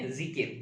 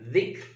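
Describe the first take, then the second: First: The first consonant is a plain buzzing 'z' sound. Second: The first consonant is made with the tongue tip. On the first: This is the form borrowed into Indonesian. "dia berubah menjadi zai ya, kita sebut zikir" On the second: This is the original Arabic form. "Asalnya za ya, ujung lidah"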